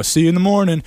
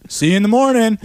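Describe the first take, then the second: First: Said in the usual way. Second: Higher, pointed SEE YOU IN THE MORNING; pointed reminder. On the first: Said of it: "And I go". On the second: Retold or imitated. Telling a departing friend once more, pointed "See you in the morning". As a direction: say "See you in the morning" high, driving it home. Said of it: "I made sure to say".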